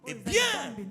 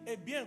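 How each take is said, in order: First: It is said firmly and with authority. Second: It is said softly and tenderly. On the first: God is speaking. The speaker calls it right. "c'est Dieu qui parle" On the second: It sounds like a love letter. The speaker calls it wrong. "comme si c'était une lettre d'amour"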